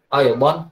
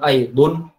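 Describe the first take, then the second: First: The word ends with the vowel a. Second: The word ends with the vowel u. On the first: The speaker calls it right. "fathatain aidon" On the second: The speaker calls it wrong. "bukan aidun"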